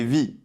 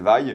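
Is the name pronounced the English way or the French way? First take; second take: French; English. First: The name is pronounced the French way. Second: The name is pronounced the English way. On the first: The speaker calls it wrong. "je pensais qu'en français c'était Vi du coup, mais non" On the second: The speaker calls it right. "c'est comme en V O, c'est Vaille"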